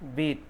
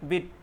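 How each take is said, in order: First: The vowel is a long ee. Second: The vowel is a short i. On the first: The speaker calls it right. "इसका correct pronunciation pronounce जो है ऐसे है" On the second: The speaker calls it wrong. "इसको ऐसे produce करते, तो वो गलत है"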